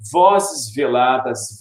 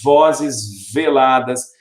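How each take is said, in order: First: Slow "vozes veladas" with the V of each word leaned on; slow, buzzing V on "vozes" and "veladas"; stressed alliteration. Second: Said in the usual way. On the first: Shown as a demonstration. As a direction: draw out "vozes veladas", pressing both V sounds. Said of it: "Eu vou acentuar um pouquinho pra vocês sentirem". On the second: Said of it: "Eu vou acentuar um pouquinho".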